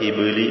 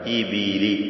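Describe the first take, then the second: First: The b has no vowel after it. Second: The b is followed by an i vowel. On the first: The speaker calls it wrong. "സുക്കൂനാക്കി പലരും പറയും, തെറ്റാണ്" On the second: The speaker calls it right. "ബാഇന്റെ കസ്ർ"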